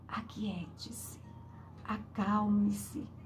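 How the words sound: It sounds calm, soft and gentle.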